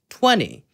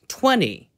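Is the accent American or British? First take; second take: American; American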